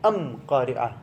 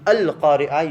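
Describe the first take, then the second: First: The article is pronounced with an m sound. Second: The article is pronounced with an l sound. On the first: "you say alif mim" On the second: This is the usual Arabic form. "instead of saying alif lam"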